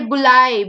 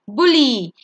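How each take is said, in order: First: The word ends with an 'eye' sound. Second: The word ends with an 'ee' sound. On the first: The speaker calls it wrong. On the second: The speaker calls it right.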